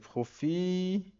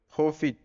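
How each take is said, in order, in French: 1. Le mot se prononce à la française. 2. Le mot se prononce à l'anglaise.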